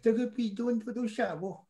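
It is said in a put-on chicken voice.

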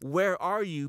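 It is said in a warm, tender tone. The caller is coming to bring the listener back. The speaker calls it right. "with the loving heart of the Father"

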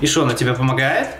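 The question has a clearly questioning tune. This is how Belarusians ask it. "А у них это там звучит"

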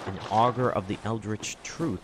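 It is said in a put-on character voice.

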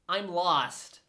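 It is said in an American accent. "American would go"

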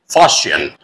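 It is said in an American accent. "And American pronunciation of this word is fustian"

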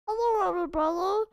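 It is said in a put-on Stitch voice.

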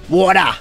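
The word is said in an Australian accent. "we say water"

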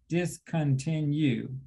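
The word is said in separate, broken-up syllables.

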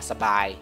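The syllables are run together smoothly. The speaker calls it right. "dibacanya biasa aja sabai ya"

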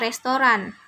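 It is said with an Indonesian-style pronunciation. The speaker calls it wrong. "Restoran itu biasanya orang kita yang sebut"

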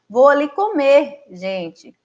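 There is a pause before the last word. The speaker is going to eat and is addressing people. The speaker calls it right. "Onde é que estaria a vírgula aqui nessa situação? Vou ali comer, vírgula, gente"

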